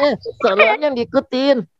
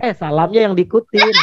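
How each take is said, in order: First: Puppet echo. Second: Said in the usual way. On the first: Acted. Puppet Odi mimicking Kak Danang in puppet voice. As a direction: parrot the line in a small puppet voice.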